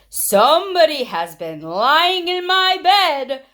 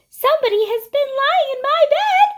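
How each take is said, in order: First: It is said in a big, deep voice. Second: It is said in a small, high voice.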